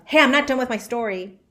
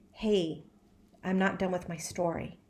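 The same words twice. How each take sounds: First: The tone is harsh and aggressive. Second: The tone is soft and gentle. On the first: The speaker calls it wrong. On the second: The speaker calls it right.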